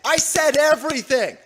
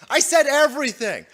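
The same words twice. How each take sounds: First: "I" punched, louder and higher; stress on I. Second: "said" punched, louder and higher; stress on said. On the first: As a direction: hit the word "I" hard, the rest falling. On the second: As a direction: hammer the word "said", then drop. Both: Real, not acted.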